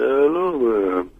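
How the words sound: It is said with an American pronunciation. "the way that the Americans say aluminum"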